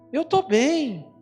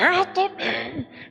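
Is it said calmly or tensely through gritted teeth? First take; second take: calmly; tensely. First: It is said fairly calmly. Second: It is said tensely, almost biting the lip.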